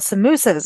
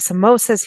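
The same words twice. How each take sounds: First: It is said with a South African pronunciation. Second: It is said with an American pronunciation. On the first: This is how it was said back home. "what we call samosas" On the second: This is how people say it here. "they say samosas here"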